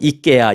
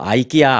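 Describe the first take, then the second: First: The name begins with an 'ee' sound. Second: The name begins with an 'eye' sound. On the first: This is the local European pronunciation used in Korea. "그쪽 발음으로 이케아, 이케아 이제 부릅니다" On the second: This is how it is said in America. "미국에서는 우리는 뭐 아이키아, 아이키아 뭐 이렇게 부르죠"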